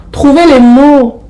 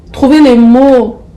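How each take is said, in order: Both takes have the same delivery.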